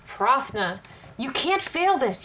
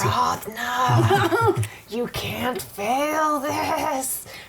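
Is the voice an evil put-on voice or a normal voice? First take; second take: normal; evil. First: It is said in a normal speaking voice. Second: It is said in a put-on evil voice. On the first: The speaker calls it wrong. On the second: The speaker calls it right.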